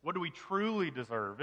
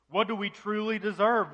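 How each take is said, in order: First: Said in the usual way. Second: "What do we truly deserve?" higher and louder, pressed hard; emphatic question. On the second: Shown as a demonstration. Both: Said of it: "we have to get down to the root of it".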